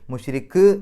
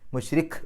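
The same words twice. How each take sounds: First: The final k is released with an echoing bounce. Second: The final k is lightly touched, not bounced. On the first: The speaker calls it wrong. "മുഷ്രിഖ് എന്ന് പറയില്ല, അത് കൽക്കലയായി പോവും" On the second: The speaker calls it right. "മുഷ്രിഖ് മുഷ്രിഖ് എന്ന് പറഞ്ഞിട്ടാണ് നിർത്തേണ്ടത്"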